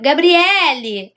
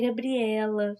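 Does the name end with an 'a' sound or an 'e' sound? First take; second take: e sound; a sound. First: The name ends with an 'e' vowel sound. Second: The name ends with an 'a' vowel sound. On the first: This is how others wrongly call her. The speaker calls it wrong. "quando me chamam de Gab- Gabriele" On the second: This is her actual name. The speaker calls it right. "é Gabriela"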